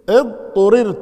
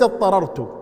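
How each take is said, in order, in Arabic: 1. الفعل على صيغة المجهول. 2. الفعل على صيغة المعلوم. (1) "اضطررت وليس اضطررت" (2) "وليس"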